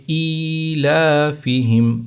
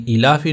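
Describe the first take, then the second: First: ایلافہم slow as "eee-laaa-fihim"; ایلافہم recited with long "ee" and "laa"; stretched vowels. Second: ایلاف ہی said quickly, short i; ایلاف ہی clipped to "ilaafi"; wrong short vowel. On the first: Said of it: "لام کو بھی کھینچیں گے". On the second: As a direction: say ایلاف ہی without stretching the opening. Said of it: "ایلاف ہی نہیں ہوگا". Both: Shown as a demonstration.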